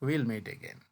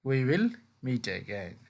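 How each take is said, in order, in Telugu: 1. 'We will' కుదించి చెప్తారు, 'we' దాదాపు వినిపించదు. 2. 'we' మరియు 'will' రెండూ పూర్తిగా పలుకుతారు.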